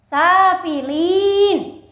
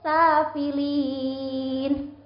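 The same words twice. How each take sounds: First: The long vowel is held for a moderate length. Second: The long vowel is held for an extra-long time. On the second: "Itu lebih panjang lagi boleh"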